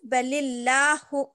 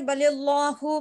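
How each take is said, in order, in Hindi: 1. 'L' की आवाज़ पतली और हल्की है। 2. 'L' की आवाज़ मोटी और भरी हुई है। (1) "तो बारीक पढ़ेंगे, जैसे" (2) "इसको हम मोटा पढ़, करके पढ़ देते ना"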